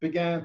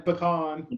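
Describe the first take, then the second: First: Pecan said as PEE-can; pecan with long ee and short-A can; one of two pronunciations. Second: Pecan said as puh-KAHN; pecan with weak puh and stressed KAHN; the other pronunciation. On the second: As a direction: say pecan slowly, landing on a broad KAHN. Contrasting two pronunciations of pecan. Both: Shown as a demonstration.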